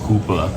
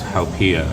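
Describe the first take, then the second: First: It is said with two syllables, hoo-pa. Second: It is said with three syllables, hau-pee-a. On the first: The speaker calls it wrong. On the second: The speaker calls it right.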